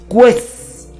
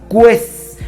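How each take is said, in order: No difference in how they are said.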